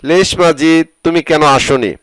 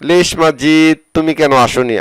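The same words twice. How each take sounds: The two takes are said the same way.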